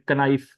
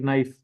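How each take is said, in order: First: The word starts with a k sound. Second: The word starts with an n sound. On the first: The speaker calls it wrong. "we don't recite like knife" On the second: The speaker calls it right. "we recite it like knife"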